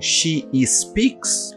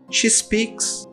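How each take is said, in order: First: An extra vowel sound comes before speaks. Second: The two words run together with no vowel. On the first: The speaker calls it wrong. "a gente costuma colocar um I antes desse, antes desse S" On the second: The speaker calls it right. "ignora esse segundo I e junta"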